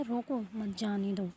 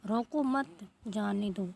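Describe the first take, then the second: First: रोको, pause, then मत जाने दो; pause after रोको. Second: "रोको" set apart slowly before "मत जाने दो"; slow it down and hold the break after रोको; slow, deliberate pause after रोको; slow comma demo. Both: Shown as a demonstration. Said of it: "रोको के आगे जो है, अल्प विराम लगाया जाता है".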